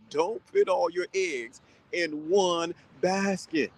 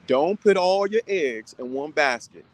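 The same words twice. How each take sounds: First: Very slow, put stretched out; slow proverb. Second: Slow, put leaned on; slow proverb. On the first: A host hammering home his advice, very slow. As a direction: drag it out for emphasis. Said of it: "trying to get you tight". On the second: A host making his advice plain, slow and firm. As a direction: spell it out slowly. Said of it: "I'm trying to make it plain". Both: Shown as a demonstration.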